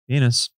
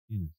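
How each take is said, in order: First: It is said more loudly. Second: It is said very softly.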